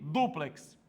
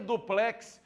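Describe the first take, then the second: First: The stress is on the first syllable. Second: The stress is on the last syllable. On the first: The speaker calls it right. "Então a sílaba mais forte aqui" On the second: The speaker calls it wrong. "Só seria duplex se fosse dupló"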